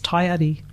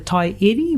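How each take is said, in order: First: The name ends with an 'ari' sound. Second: The name ends with an 'eri' sound. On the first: It follows the traditional name. "as a traditional name it is taiari" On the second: It follows the modern written spelling. "would be the pronunciation if you were going to pronounce it as written"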